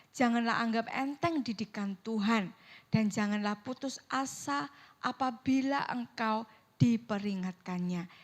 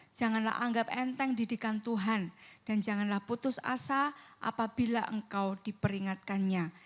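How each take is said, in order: Both takes have the same delivery.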